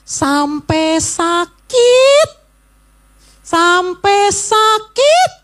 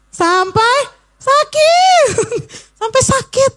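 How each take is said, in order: First: Slow, drawn-out sakit; stretched out. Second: High emphatic repeat. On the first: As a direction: stretch out the words "sampai sakit". ("sampai sakit" diucapkan lambat dan panjang) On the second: ("sampai sakit" diulang dengan nada jauh lebih tinggi) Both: Shown as a demonstration. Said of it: "Ulangi coba".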